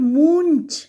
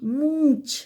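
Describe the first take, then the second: First: The nasal is a full n consonant. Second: The vowel is lightly nasalized, no full n. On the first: The speaker calls it wrong. "It's not moonch" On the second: The speaker calls it right. "It's only nasal sound is there. Little nasal sound"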